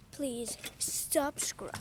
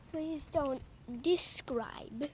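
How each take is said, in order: First: Drawn-out, pleading please; slow pleading. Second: Said in the usual way. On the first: Shown as a demonstration. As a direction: stretch it out slowly, begging.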